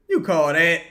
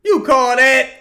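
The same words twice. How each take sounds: First: Said in the usual way. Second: Higher and much louder, indignant; outraged repeat. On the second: Real, not acted. Fan yelling at the ref over a bad call, outraged. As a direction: hurl it at the ref.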